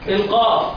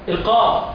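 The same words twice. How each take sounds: Both takes have the same delivery.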